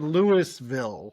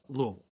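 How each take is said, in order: First: The first part sounds like the name Louis. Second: It is slurred into a short mumbled form. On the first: The speaker calls it wrong. "A lot of people say Louisville because it's just dumb" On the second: The speaker calls it right. "correct pronunciation is Louisville ... like you have marbles in your mouth"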